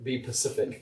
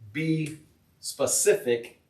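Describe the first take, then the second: First: The word begins with a 'p' sound. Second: The word begins with an 's' sound. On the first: The speaker calls it wrong. "I'll tell you one that I get wrong quite often" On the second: The speaker calls it right. "I know it's be specific"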